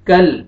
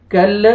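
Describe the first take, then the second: First: कल closed on a steady, unbounced L; still laam. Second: कल with the L released into a little extra vowel, "kal-la"; bounced laam. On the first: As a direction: hold the final L of कल without releasing a vowel. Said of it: "लाम को आपने नहीं हिलाना". (कल में लाम बिना हिलाए) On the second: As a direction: wrongly bounce the L at the end of कल. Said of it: "ऐसे नहीं पढ़ना". (कल में लाम हिलाकर) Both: Shown as a demonstration.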